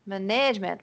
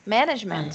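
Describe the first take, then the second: First: MANAGEMENT said as muh-NEDGE-ment; "management" with stress moved to the middle; wrong second-syllable stress. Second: MANAGEMENT said as MAN-idge-ment; "management" stressed at the start, the rest unstressed; first-syllable stress. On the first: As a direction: show the mistake, punching "-nage-" in "management". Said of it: "mas não é isso". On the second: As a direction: model it with the opening syllable of "management" strong. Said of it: "a única opção é a primeira sílaba". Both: Shown as a demonstration.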